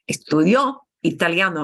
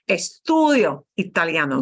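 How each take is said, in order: First: The stress falls on the last syllable. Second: The stress falls on the second-to-last syllable. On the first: He studied it in the past. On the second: I am studying it right now.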